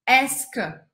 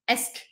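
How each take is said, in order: First: It is said slowly and fully. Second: It is said quickly and clipped.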